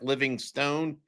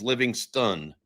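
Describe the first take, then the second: First: The last syllable is said like 'stone'. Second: The last syllable is said like 'stun'. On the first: This is how the spelling suggests it is said. The speaker calls it wrong. "even though it looks like Livingstone" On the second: This is how the person himself says it. The speaker calls it right. "His proper pronunciation of his last name"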